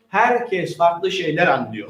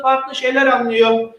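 First: Slow, lower summary. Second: Said in the usual way. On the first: Shown as a demonstration. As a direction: drop low and slow down on Herkes farklı şeyler anlıyor.

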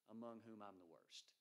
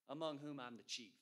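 First: Softer, lower, humbled; preacher quoting Paul, softer and lower; quiet confession. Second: Louder, punching chief; preacher quoting Paul, louder on chief; emphatic confession. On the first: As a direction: say it low and hushed, ashamed. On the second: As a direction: declare it, hitting chief hard. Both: Retold or imitated. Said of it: "This is what he says".

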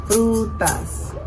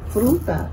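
First: Frutas in two long beats, Fru-tas; syllable by syllable. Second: Said in the usual way. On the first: Shown as a demonstration. Teacher confirming two, Frutas syllable by syllable. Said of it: "tiene dos sílabas". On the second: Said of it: "La palabra fruta".

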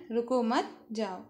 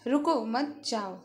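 First: "रुको मत" together, pause, then "जाओ", slowly; pause after मत. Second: "रुको", pause, then "मत जाओ", slowly; pause after रुको. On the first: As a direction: break after मत so it means don't stop, go. ("रुको मत" साथ में, विराम, फिर "जाओ") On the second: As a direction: break after रुको so it means stop, don't go. ("रुको" के बाद विराम, फिर "मत जाओ") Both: Shown as a demonstration. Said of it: "बोलते समय अलग-अलग जगह विराम से".

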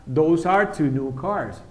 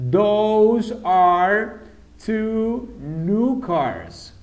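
First: Said in the usual way. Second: Very slow, drawn-out Those answer; very slow model. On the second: Shown as a demonstration. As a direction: stretch each word for the class. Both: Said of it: "¿Qué ponemos entonces?".

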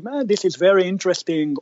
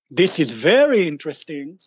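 First: Quick, offhand "Ah, this is very interesting" with a falling "Ah"; dismissive interesting. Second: "This is very interesting" with a rise on "very"; genuinely interested. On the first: Investor politely brushing off a pitch, offhand. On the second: Investor genuinely interested in the pitch, rising on "very". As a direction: lean into "very" with real interest. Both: Shown as a demonstration. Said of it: "you can see how the tone is really the thing".

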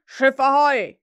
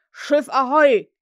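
First: Loud hail across the water; Hook's call again. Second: Loud, slow hail across the lagoon; Hook's call. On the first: Hook calls his men once more, loud hail. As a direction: bellow it to the boat. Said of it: "ertönte noch einmal derselbe Ruf". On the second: Hook calls his boat from the water, loud slow hail. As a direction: call out long over the water. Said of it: "mit Hooks Stimme über die Lagune scholl". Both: Acted.

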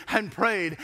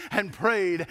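No difference in how they are said.

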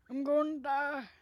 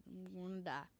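First: Put-on higher, much louder creaky old man croak on I'm gonna die. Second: Said in the usual way. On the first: Shown as a demonstration. Gamer shows off his old man voice, loud and high. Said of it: "It's a very old man voice". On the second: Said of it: "Don't know how I do that voice".

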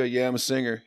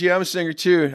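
First: Said in the usual way. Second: High and loud rocker's "I'm a singer too"; mock rocker voice. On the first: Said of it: "I go". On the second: Mike answering [name], pitched up and loud. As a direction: play it as the cool rock singer, higher and louder. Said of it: "He goes".

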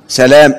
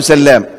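First: سلام said sa-lam with a short single L; سلام, lam short and light, no doubling; سلام read as the exception, a light single lam; correct light lam. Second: سلام said sal-lam with a long doubled L; سلام with the lam held and stressed; سلام, the common mistaken doubled-lam reading; wrong doubled lam. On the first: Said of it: "اوعى تقول سلام". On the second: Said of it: "اوعى تقول". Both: Shown as a demonstration.

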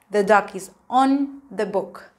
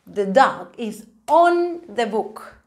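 First: Said in the usual way. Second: Slow model sentence. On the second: Shown as a demonstration. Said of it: "teacher models sentence".

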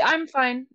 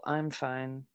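First: High, light and unbothered; honest "I'm fine". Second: Low, soft, withdrawn "fine"; disappointed "I'm fine". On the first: Explaining the first example, honest "I'm fine". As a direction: brush it off sincerely in a raised pitch. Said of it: "like, an honest". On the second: Explaining the second example, passive-aggressive "I'm fine". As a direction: drop it quiet and low, hiding disappointment. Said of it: "I am so disappointed in you". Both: Shown as a demonstration.

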